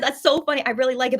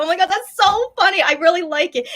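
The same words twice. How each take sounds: First: Said in the usual way. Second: Higher, louder gushing reaction; replaying her own delighted reaction; excited gush. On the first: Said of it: "so when I said". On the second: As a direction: burst out like you love the joke. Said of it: "the way I laughed and reacted to it".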